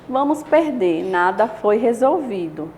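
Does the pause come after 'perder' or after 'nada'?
after perder. There is a pause right after 'perder'. We will lose; nothing was solved.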